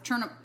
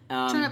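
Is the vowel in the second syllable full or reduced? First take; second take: reduced; full. First: The second syllable has a reduced schwa vowel. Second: The second syllable has a full vowel.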